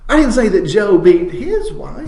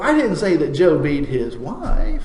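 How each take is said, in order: First: The word his carries the main stress. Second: The word wife carries the main stress. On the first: It was another man's wife. "it was his neighbor's wife that he knocked around" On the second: It was a different woman of his. "it was his sister that he was knocking around"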